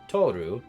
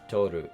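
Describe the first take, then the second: First: One syllable is stressed more than the other. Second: Both syllables are said with even, level inflection. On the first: The speaker calls it wrong. "or Toru" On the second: The speaker calls it right. "you say it all in the same inflection. So it's Toru"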